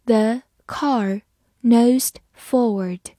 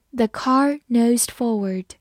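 First: Very slow, word by word with pauses; slow reading. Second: Said in the usual way. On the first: Shown as a demonstration. Teacher leading learners through the example, slowly. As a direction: read it slowly, each word set apart. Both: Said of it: "好，我们慢慢来读".

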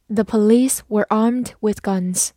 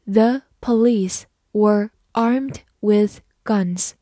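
First: Said in the usual way. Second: Slow, careful read of The police were armed with guns. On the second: Shown as a demonstration. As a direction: read slowly word by word. (慢慢地朗读) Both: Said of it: "好，慢慢来读。".

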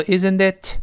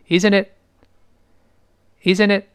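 First: "isn't it" with a clearly released final t; wrong-way demo of "isn't it", last t popped out; final t pronounced. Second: "Isn't it" with the last t left silent; final t dropped. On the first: Teacher shows learners what to avoid in "isn't it", final t sounded. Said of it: "哎，不要读". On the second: Teacher models "Isn't it" for learners, final t dropped. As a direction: say "Isn't it" linked, its final t unreleased. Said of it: "后面那t没了". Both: Shown as a demonstration.

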